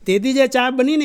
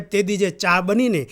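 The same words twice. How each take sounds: First: Higher and louder, stressing જે; louder storytelling repeat; emphatic repeat. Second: Said in the usual way. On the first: Shown as a demonstration. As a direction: lift it up for the punchline. Emphatic repeat of previous line.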